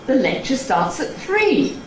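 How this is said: It is said in an impatient, exasperated tone. The listener ought to know this already. "it would sound impatient because the implication is that you ought to know that"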